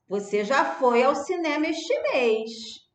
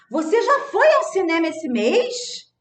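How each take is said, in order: First: It is said as a plain, flat statement. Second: It is said in an astonished, surprised tone. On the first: It asserts that the listener already went. "Tô afirmando que você já foi" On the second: It expresses astonishment that the listener already went. "com espanto"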